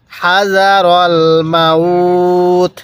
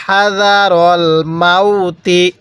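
First: "মাউত" held long, closing on a bare t; slow recitation stopping on the t of মাউত; stopped reading. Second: "মাউতি" ending in a sounded ti; slow recitation carrying through to the i of মাউতি; joined reading. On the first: Teacher showing the pause form, drawn-out stop. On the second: Teacher showing reading without a pause, joined ending. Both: Shown as a demonstration. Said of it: "ওয়াকফ না করলে".

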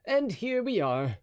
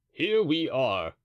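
First: Raised, slow and bright; musketeer voice. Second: Slow, loud, pleased echo; Porthos echoing. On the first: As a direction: draw it out cheerfully. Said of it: "D'Artagnan's line". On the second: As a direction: repeat it slowly with a grin. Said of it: "said Porthos". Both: A narrator's reading.

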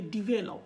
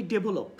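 First: "ডিভেলপ" as di-VE-lop; short di, clear v in "ডিভেলপ"; correct pronunciation. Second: "ডেভেলপ" as de-bo-lop; b in place of v in "ডেভেলপ"; common mispronunciation. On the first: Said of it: "উচ্চারণটা হবে ডিভেলপ". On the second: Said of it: "আমরা বলি ডেভেলপ". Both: Shown as a demonstration.

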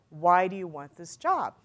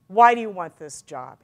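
First: Slower, measured interview question; deliberate repeated question. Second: Louder, forceful opening on "Why"; direct interview question. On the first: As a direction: spell out "Why do you want this job" unhurriedly. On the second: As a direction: launch straight in with a loud "Why". Interviewer's question, first take. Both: Retold or imitated.

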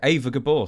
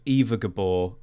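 First: "Eva" said as AY-va. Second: "Eva" said as EE-va. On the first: Host corrects the cast name, saying "Eva" as AY-va. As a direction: say "Eva" to rhyme with Ava. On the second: Host reads out the cast, saying "Eva" as EE-va. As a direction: say "Eva" with a long ee, EE-va. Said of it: "no, but Eva. It was Eva". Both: Real, not acted.

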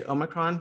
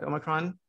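First: "Omicron" opened with a long OH; preferred pronunciation. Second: "Omicron" opened with a short AH; English pronunciation. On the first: Host declaring the pronunciation they like, long-O "Omicron". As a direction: say "Omicron" as OH-mi-cron. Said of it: "I'm gonna say Omicron". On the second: Host naming the version they like less, short-AH "Omicron". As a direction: say "Omicron" as AH-mi-cron. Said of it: "more than Omicron". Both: Shown as a demonstration.

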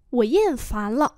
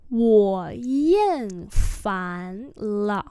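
First: Said in the usual way. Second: Syllable by syllable; drawn-out teaching take; slow demonstration. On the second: Shown as a demonstration. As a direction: model the tones slowly. Teacher repeats phrase slowly.

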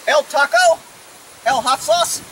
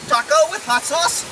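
First: Put-on fake Spanish accent; mock Spanish accent. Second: Said in the usual way. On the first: Retrying the command for the horse, mock Spanish accent. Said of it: "my Spanish accent". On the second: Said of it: "I didn't put my, my Spanish accent".

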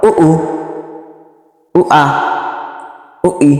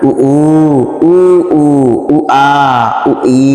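First: উ উ, উ আ, উ ই said short and crisp with no drawn vowels; quick short vowels. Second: উ উ, উ আ, উ ই with the vowels wrongly stretched and sung; drawn-out wrong vowels. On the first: Teacher showing students the correct quick উ উ, উ আ, উ ই. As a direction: clip each উ, আ, ই short, one quick beat per syllable. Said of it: "হরকতের উচ্চারণ তাড়াতাড়ি করে পড়তে হয়". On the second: Teacher demonstrating the mistake of stretching উ উ, উ আ, উ ই. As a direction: drag out each উ, আ, ই the wrong way, with a long pull. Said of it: "কেউ এর উচ্চারণ কিন্তু এরকম করেন না".

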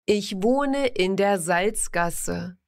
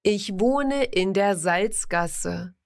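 No difference in how they are said.

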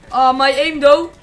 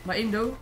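First: Much louder, drawn-out frustrated yell; loud slow cry. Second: Said in the usual way. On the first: Real, not acted. Gamer yelling at his own bad aim, long and loud. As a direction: stretch it out loud in disbelief.

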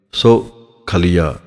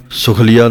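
First: ਸੁਖਲੀਆ as "so... khaliya", slow with a gap; separated syllables. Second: ਸੁਖਲੀਆ as "sukhliya", short u, no gap; joined misreading. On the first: Teacher modelling correct reading, ਸੁਖਲੀਆ split "so, khaliya". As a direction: break ਸੁਖਲੀਆ after "so", then say "khaliya". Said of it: "ਇਹਨੂੰ ਵੱਖਰਾ ਕਰਕੇ". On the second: Teacher showing the wrong reading, ਸੁਖਲੀਆ as joined "sukhliya". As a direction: run ਸੁਖਲੀਆ together with a short first vowel. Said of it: "ਸੁਖਲੀਆ ਨਹੀਂ ਪੜ੍ਹਨਾ ਹੈ". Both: Shown as a demonstration.

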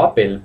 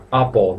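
First: "apple" ending in a clear "el"; mispronounced "apple" with an E in the last syllable; wrong "apple". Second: "apple" ending in a dark O-like sound; English "apple", last syllable rounded like an O; correct "apple". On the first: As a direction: say "apple" as "A-pel", Spanish style. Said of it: "no apple, please". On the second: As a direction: say "apple" as "A-pol". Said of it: "Acordaos la pronunciación apple". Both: Shown as a demonstration.

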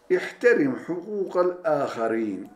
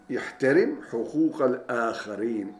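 First: İhterim hukukal âkharîn read out high and firm, teacher's model; first reading, lifted high for the class; raised model reading. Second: Said in the usual way. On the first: Shown as a demonstration. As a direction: pitch up on İhterim like reading from the board.

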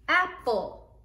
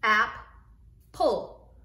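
First: Said in the usual way. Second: Ap- and pull said apart and louder; Ap-, pull split into syllables, louder. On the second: Shown as a demonstration. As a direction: sound out Ap- then pull, punched. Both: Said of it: "Now I have my two syllables".

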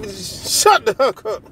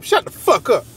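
First: "fuck" said as "huck", slow and drawn out; forced H instead of F. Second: "fuck" with a full, hard F; harsh F. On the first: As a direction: swap the F in "fuck" for an H, slowly. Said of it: "And I put my H in there". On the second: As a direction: spit out "fuck" with a clear F sound. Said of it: "You hear how harsh and mean that sound?". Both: Shown as a demonstration.

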